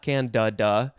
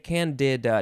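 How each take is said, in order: First: The middle syllable has an 'uh' vowel. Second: The middle syllable has a clear 'ih' vowel. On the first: "those two syllables are spelled exactly the same way" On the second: "I want to put a little more I sound in the can-de part"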